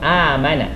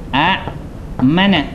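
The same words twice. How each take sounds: First: It opens with one long drawn-out a vowel. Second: It opens with two glottal-stop syllables. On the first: This is how the word is actually read. "tapi kita tak sebut a, kita sebut" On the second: This is the word's underlying original form. "Asal perkataan ialah"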